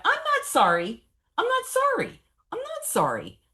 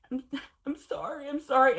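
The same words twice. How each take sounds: First: High, loud, furious refusal; defiant shout. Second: High, teary, swelling into a loud sorry; tearful apology. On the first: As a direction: throw it at the whole room, much higher and louder. Defiant outburst before therapists. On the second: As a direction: plead sorry through tears, getting louder. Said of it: "I'm like, I'm crying". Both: Retold or imitated.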